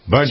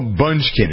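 First: The name is said without a K sound. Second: The name is said with a K sound. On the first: The speaker calls it right. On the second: The speaker calls it wrong.

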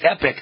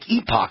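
First: The word sounds like 'epic', with a short vowel. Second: The word sounds like 'ee-pock', with a long vowel. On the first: "it's pronounced Epic" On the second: "but it looks like Epoch"

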